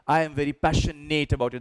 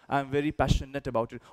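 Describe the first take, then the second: First: It is said with the full form 'I am'. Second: It is said with the contraction 'I'm'. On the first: The speaker calls it wrong. "That's wrong" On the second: The speaker calls it right. "You should say, I'm"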